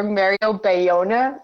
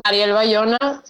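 First: Slow, anglicized "Mario Bayona"; English accent. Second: Mariel Bayona said with Spanish vowels and r; native Spanish pronunciation. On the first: Guest offers listeners her name in an English accent. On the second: Guest gives her Instagram handle, Spanish pronunciation. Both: Shown as a demonstration. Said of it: "like, an English accent".

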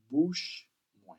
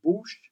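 First: Bouche moi, bouche stressed, falling; Creole for my mouth. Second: Bouche called out high and loud; Creole word called out. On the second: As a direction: call out Bouche brightly. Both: Shown as a demonstration. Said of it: "All right?".

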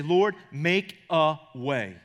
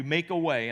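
First: Very slow, deliberate, Lord, make a way; slow prayer line. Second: Said in the usual way. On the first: Shown as a demonstration. Pastor showing his go-to prayer, slow and deliberate. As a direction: pray it out word by word. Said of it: "I say".

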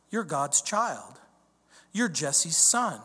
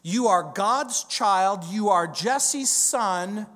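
First: Said in the usual way. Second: Put-on "You are God's child" slow, stressing "God's"; stressed answer. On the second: Shown as a demonstration. Preacher answering for David, slow stress. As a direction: lean on "God's" and "Jesse's". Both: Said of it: "give it a try".

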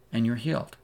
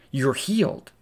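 First: Said in the usual way. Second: Joyful declaration. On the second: Acted. Preacher proclaiming the woman's healing, excited. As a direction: announce the healing with rising joy.

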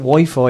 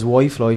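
First: Said in the usual way. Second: "Wi-Fi" said as "Why-Floy"; mispronounced Wi-Fi. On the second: Retold or imitated. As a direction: slip an L into the second syllable of "Wi-Fi". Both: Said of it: "she's been thinking Wi-Fi is Wi-Fi".

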